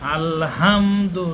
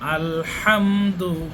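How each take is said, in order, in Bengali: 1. 'h' ধ্বনিটি হালকা ও দুর্বল। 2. 'h' ধ্বনিটি জোরালো ও স্পষ্ট। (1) "আলহামদু নয়" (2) "হার উচ্চারণটি স্পষ্ট এখানে আসতে হবে"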